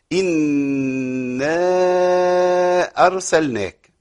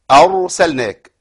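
First: أرسلناك with a thin, softened R; wrong light R. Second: أرسلناك with a full, heavy velarized R. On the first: Teacher showing the students the wrong thin R. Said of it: "أر ما تنفعش خالص". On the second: Teacher showing the class the correct heavy R. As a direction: stress أرسلناك with a thick, emphatic R. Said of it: "يبقى الراء تفخم". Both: Shown as a demonstration.

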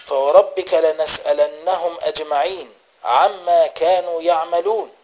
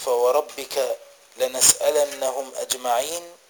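First: Repeated verse, recited with rising intensity; emphatic recitation. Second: Said in the usual way. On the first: A narrator's reading. Mother overhears her son reciting at night, emphatic recitation. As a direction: recite the verse with more force. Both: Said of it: "وسمعته يقرأ".

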